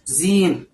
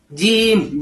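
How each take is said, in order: First: It starts with a buzzing z sound. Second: It starts with a plain j, without breath. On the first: The speaker calls it wrong. "atau seperti huruf Z" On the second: The speaker calls it right. "nggak keluar nafas"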